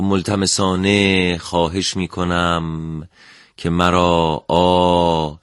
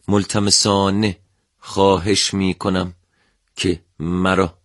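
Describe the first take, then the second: First: The final vowel is drawn out long. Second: The final vowel is cut short.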